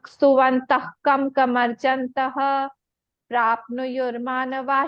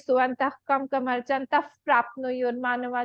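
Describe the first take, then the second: First: There is a pause before the last word. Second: The words run on without any pause. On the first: The visarga stays unchanged before the next word. "हम रुक रहे हैं वहां पे" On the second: The visarga changes by sandhi before the next word. "बिना रुके पढ़ेंगे"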